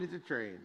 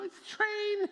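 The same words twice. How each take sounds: First: Said in the usual way. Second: Very high, loud mock-exasperated it's a train; exasperated squeal. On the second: Pastor mocking a Facebook commenter, squealing in disbelief.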